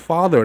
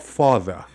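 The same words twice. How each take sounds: First: It is said with an American rolled R. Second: It is said in a British accent, no R.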